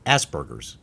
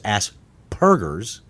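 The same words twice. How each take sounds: First: The middle syllable starts with a soft B-like sound. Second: The middle syllable starts with a clear P sound. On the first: "it almost comes off as burr, not purr" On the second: "that sounds dumb too"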